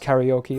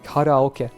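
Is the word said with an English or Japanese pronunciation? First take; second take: English; Japanese. First: It is said with an English pronunciation. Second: It is said with a Japanese pronunciation. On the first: The speaker calls it wrong. "I pronounce karaoke like that as well, which is obviously not true either" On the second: The speaker calls it right. "karaoke would be karaoke in Japanese"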